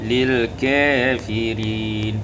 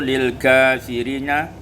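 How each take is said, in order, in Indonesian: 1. Vokal setelah k condong ke e. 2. Vokal setelah k adalah a terbuka yang jelas.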